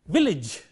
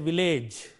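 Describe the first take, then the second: First: The last syllable sounds like 'idge'. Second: The last syllable sounds like 'age'. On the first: The speaker calls it right. "the vowel which is reflected is E. Not A, but E" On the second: The speaker calls it wrong. "People go by the spelling and they say village"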